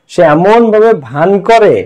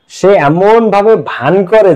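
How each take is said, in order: The two takes are said the same way.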